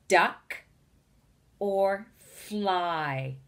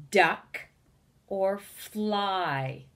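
The two takes are said the same way.

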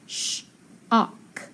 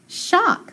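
First: Long "sh", pause, then "ok"; slowly segmented "sh-ok"; sounding out. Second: Said in the usual way. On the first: Shown as a demonstration. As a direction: split "sh-ok" into its two sounds. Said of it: "So I have". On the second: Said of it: "So I have sh-ok".

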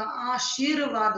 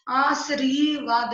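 First: Said in the usual way. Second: आशीर्वाद said "aasreevaad"; wrong sound order. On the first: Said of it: "होता है". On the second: Shown as a demonstration. Teacher correcting a mistake, आशीर्वाद as "aasreevaad". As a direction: move the r forward in आशीर्वाद, "aasree-". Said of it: "नहीं होता".

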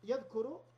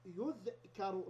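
First: Said in the usual way. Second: يذكر said very slowly as yudhkaru, u first and open a on k; slow teaching yudhkaru for يذكر; passive pronunciation. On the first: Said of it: "فتقول". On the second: Shown as a demonstration. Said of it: "نضم الأول ونفتح ما قبل الآخر".

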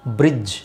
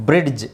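First: ಬ್ರಿಡ್ಜ್ as a smooth "brij", no d; D silent. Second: ಬ್ರಿಡ್ಜ್ with an audible d before j; D sounded. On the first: Teacher saying D must be silent, ಬ್ರಿಡ್ಜ್ as "brij". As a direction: drop the d in ಬ್ರಿಡ್ಜ್. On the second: Teacher showing what to correct, ಬ್ರಿಡ್ಜ್ with hard d pronounced. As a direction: say ಬ್ರಿಡ್ಜ್ as "brid-j". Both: Shown as a demonstration. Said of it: "ಡಿ silent ಮಾಡ್ಬೇಕು".

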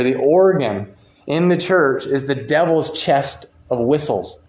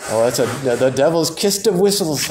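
First: Said in the usual way. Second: Put-on a light, half-hearted Scottish accent on "the devil's kist of whistles"; a modest stab at a Scottish accent. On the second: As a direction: try a Scottish minister's accent, admittedly not very well. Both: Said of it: "I can kinda hear a Scottish guy saying that".

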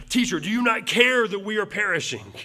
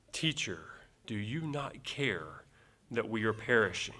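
First: Higher, louder panicked plea; frantic disciples pleading in a storm. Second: Calm reading. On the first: Acted. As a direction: cry out in panic to your teacher. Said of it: "you can just hear the panic in their voices". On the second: Shown as a demonstration. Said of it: "I doubt that it came across like that".

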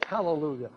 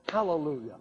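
Both takes have the same delivery.

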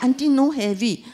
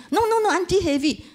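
First: Own protest. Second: Much higher, louder insisting no, no, no; eager helper pressing his point; foreign worker insisting. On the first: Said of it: "So I said". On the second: Foreign worker insists the auntie's bags are heavy. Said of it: "and he said". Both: Retold or imitated.

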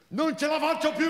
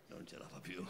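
First: Much higher, desperate outburst; Marina's thin voice. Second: Said in the usual way. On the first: Acted. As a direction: cry it out in a thin high voice. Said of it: "quella sua voce sottile e inadeguata". (voce sottile, disperata)

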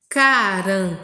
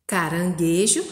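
First: Emphatic teacher's dictation; syllable by syllable. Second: Caranguejo joined up, lower, rising at the end; lower, connected read-back with a lift at the end; whole-word reading. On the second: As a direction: blend the syllables into one word. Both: Shown as a demonstration. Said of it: "que tá escrito aí de verdinho".

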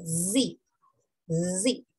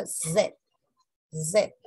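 First: Letter "Z" as buzzing "zee"; American Z. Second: Letter "Z" as buzzing "zed"; British Z. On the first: Teacher shows American English letter name, "zee". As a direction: buzz the z, then long ee in "Z". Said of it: "En el inglés americano se dice Z". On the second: Teacher shows British English letter name, "zed". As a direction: buzz the z and end "Z" on ed. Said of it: "En el inglés británico". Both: Shown as a demonstration.

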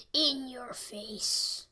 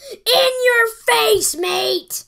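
First: Slow, hushed whisper; whispered gloat. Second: Loud, high, slow gloat. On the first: Gamer whispering the taunt back at his opponent. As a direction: breathe the taunt slowly. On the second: Gamer gloating at his opponent, loud and slow. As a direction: rub it in his face. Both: Real, not acted.

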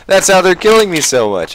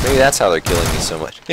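First: High, laughing repeat. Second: Said in the usual way. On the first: Real, not acted. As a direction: laugh through the words.

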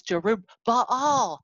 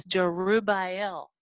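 First: "Jerubbaal" slow and loud, ending bah-ALL; name broken down. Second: "Jerubbaal" drawn out, ending BAY-el; name broken down. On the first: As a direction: punch out "Jerubbaal" as juh-roob-BAH-ALL. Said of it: "But when you see". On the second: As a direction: slowly say "Jerubbaal" as juh-roo-BAY-el. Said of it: "Look at this". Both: Shown as a demonstration.

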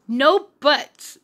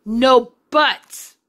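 First: A touch of a stern mother; firm little scold, lightly voiced; mild scolding. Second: Scolding, pushed louder. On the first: Mother lightly scolding her children, mildly stern. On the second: Mother repeats the scold to her children, louder. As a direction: say it again with more force. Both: A narrator's reading. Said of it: "their mother scolded".

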